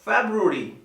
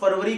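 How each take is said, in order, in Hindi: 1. यह 'februari' जैसा बोला जाता है, b-r की आवाज़ के साथ। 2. यह 'farvari' जैसा बोला जाता है, r-v की आवाज़ के साथ। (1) "लेकिन ये होता है फेब्रुअरी" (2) "जिसे लोग फरवरी कहते हैं, हिंदी में बोल देते हैं"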